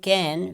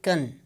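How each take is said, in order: First: The vowel is a full, clear vowel. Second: The vowel is reduced to a weak schwa. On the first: "Instead of saying can" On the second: "this has been converted into shwa"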